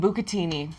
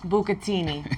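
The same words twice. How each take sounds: First: It is said in a plain accent. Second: It is said in a New York accent.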